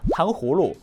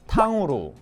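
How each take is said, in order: First: The h sound in the middle is clearly pronounced. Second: The h sound in the middle is dropped. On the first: The speaker calls it right. "아무리 빨리 얘기해도 ... 후 이게 들어가기 때문에" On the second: The speaker calls it wrong. "후후를 다 넣지 않고요"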